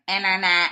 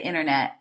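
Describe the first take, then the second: First: The word is said with each syllable clearly pronounced. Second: The word is said loosely with reduced syllables. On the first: "they say their syllables very nicely" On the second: "when I was speaking in English, I'd be like"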